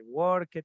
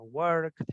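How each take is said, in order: First: Worked said the wrong way, with the -ed as an extra syllable; wrong pronunciation. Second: Worked said the right way, with the -ed as a plain t sound and one syllable; correct pronunciation. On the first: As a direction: demo the mistake: worked as "work-ed". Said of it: "no se dice worked". (worked mal pronunciado, con la -ed como sílaba aparte) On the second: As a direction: model it right: worked as "workt". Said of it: "sino worked". (worked bien pronunciado, con la -ed como una t en una sola sílaba) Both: Shown as a demonstration.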